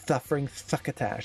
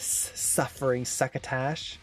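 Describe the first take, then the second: First: The s sounds are lisped like th sounds. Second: The s sounds are clear, plain s sounds. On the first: "It's th. It's a th sound" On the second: "it's not a suffering succotash"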